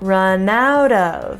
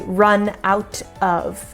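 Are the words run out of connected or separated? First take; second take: connected; separated. First: The words are linked together with a flap T. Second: Each word is said separately, without linking. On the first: The speaker calls it right. "We connect it all" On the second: The speaker calls it wrong. "We don't really say run out of"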